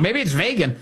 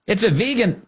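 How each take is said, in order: First: Vegan said vay-gun, the usual way; vegan standard. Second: Vegan with a long ee, pitched up high; high mocking vee-gan for vegan. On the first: Host offers the usual vegan, said vay-gan. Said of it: "maybe I'm wrong". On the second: Host mocks the president's vegan as high vee-gan. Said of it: "how to pronounce that thing". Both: Shown as a demonstration.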